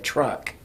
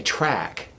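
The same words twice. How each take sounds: First: "truck" said with a clear u where "track" was meant; imitating a mispronunciation. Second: Said in the usual way. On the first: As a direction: mimic the Ugandan kids saying "truck" for "track". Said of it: "but they said truck". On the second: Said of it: "wanted to say track".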